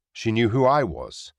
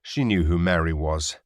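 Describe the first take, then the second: First: I stressed with a falling end. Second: She stressed, not Mary. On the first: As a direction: hit the word I. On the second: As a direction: lean on the word she. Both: A narrator's reading. Narrator builds realization.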